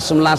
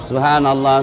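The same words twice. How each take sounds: First: It is rushed and clipped very fast. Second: It is said slowly with every syllable clear. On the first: The praise is recited hastily without care. The speaker calls it wrong. "terlalu cepat" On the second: The praise is recited carefully and properly. The speaker calls it right. "Sempurnakan ucapannya"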